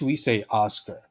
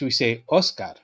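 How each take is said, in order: First: The name is said with English pronunciation. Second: The name is said with Spanish pronunciation. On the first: "In English, we say Oscar" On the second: "In Spanish, we say Oscar"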